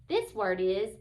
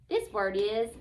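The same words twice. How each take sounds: Both takes have the same delivery.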